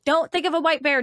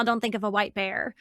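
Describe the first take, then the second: First: Emphatic repeat. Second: Said in the usual way. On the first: Shown as a demonstration. Repeating the command to Daniel, louder and emphatic. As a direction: press the warning harder. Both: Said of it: "if I tell you right now".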